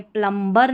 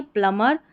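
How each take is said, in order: First: प्लम्बर with the B wrongly pronounced; B sounded. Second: प्लमर with no B, rising at the end; silent B. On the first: Teacher showing what it is not, प्लम्बर with B sounded. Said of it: "ये प्लम्बर नहीं है". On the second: Teacher giving the English reading, प्लमर with silent B. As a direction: leave the B out of प्लमर. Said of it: "यहाँ इसको प्लम्बर करके ही पढ़ना है". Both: Shown as a demonstration.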